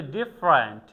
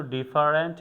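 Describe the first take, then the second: First: ডিফারেন্ট said "ডিফরেন্ট", middle vowel dropped; two-syllable different. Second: ডিফারেন্ট with every syllable "ডি-ফা-রেন্ট"; the wrong way: ডিফারেন্ট spelled out; wrong three-syllable different. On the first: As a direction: squeeze ডিফারেন্ট into "ডিফ্রেন্ট". (ডিফারেন্ট উচ্চারণ "ডিফ্রেন্ট", মাঝের স্বর বাদ) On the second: (ভুল উচ্চারণ: ডি-ফা-রেন্ট) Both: Shown as a demonstration. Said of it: "এটাকে কখনো ডিফারেন্ট বলে না".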